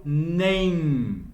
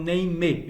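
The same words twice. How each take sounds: First: "name" as one slow syllable ending on a long m; silent final E. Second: "name" as two syllables, nay-mee; voiced final E. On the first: Teacher shows students how she says it, silent final E. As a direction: close "name" on a held m, no vowel after. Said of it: "eu falo name". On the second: Teacher shows students what not to say, voiced final E. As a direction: add an ee vowel after the m of "name". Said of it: "não é pronunciado com o último E". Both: Shown as a demonstration.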